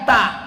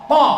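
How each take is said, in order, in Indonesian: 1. Bunyi t-nya tipis dan polos. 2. Bunyi t-nya tebal dan emfatis. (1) "bukan ta"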